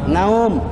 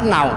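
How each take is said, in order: First: The word ends with the lips closed. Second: The word ends without closing the lips. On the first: The speaker calls it right. "Kan naum, tidur kan nanti" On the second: The speaker calls it wrong. "Masa nau?"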